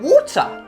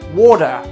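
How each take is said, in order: First: It is said in a British accent, crisp middle T. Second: It is said in an American accent, soft middle consonant. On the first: "les Britanniques, allons plutôt prononcer le mot eau, water, en prononçant le T" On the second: "nous aux États-Unis, on dit le mot eau"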